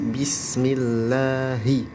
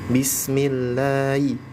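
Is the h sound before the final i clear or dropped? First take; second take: clear; dropped. First: The final syllable has a clearly voiced h. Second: The final syllable sounds like a bare i. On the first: The speaker calls it right. "jadi bukan i, tapi bismillahi" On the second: The speaker calls it wrong. "jadi seperti suara i"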